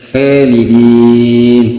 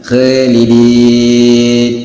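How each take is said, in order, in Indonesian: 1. Vokal pertama tipis dan ringan. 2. Vokal pertama tipis dan ringan.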